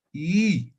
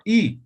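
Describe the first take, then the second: First: Y as a long, held ee vowel; lengthened I. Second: I as a single-beat vowel; short I. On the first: Teacher showing what the two dots do, lengthened Y. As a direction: stretch Y to two beats of ee. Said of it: "alargo un poco". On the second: Teacher showing Aymara vowel length to students, short I. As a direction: say I short, one beat only. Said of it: "un tiempo, I". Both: Shown as a demonstration.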